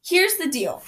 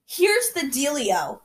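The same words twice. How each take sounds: First: Said in the usual way. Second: Slow, sing-song Southern teacher; kindergarten teacher voice. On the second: Acted. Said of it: "I sound like a kindergarten teacher from the South".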